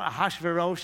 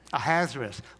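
First: The name is said in its standard way. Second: The name sounds like 'a hazard to us'. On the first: "It turns out Ahasuerus is the correct pronunciation" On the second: "my favorite pronunciation is? ... Because this man is a hazard to us"

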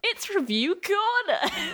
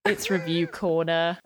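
First: It sounds enthusiastic and upbeat. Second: It sounds fed up and flat.

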